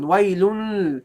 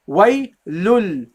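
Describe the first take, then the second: First: "Waylul" wrongly ending in a faint humming n; very light noon. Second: "Waylul" ending on a clear held l; corrected lam ending. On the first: Teacher imitates how people sometimes pronounce it, light noon. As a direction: let a light n replace the last l of "Waylul". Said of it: "very light noon". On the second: Teacher corrects the light noon, clear lam. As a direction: close "Waylul" firmly on l, no n. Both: Shown as a demonstration.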